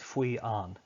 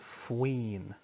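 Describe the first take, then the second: First: The two words are said separately, vowel meeting vowel. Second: The two words are run together into one. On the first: The speaker calls it wrong. "It just doesn't sound very nice" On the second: The speaker calls it right. "we kind of push them together"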